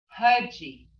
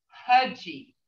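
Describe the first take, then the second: Both takes have the same delivery.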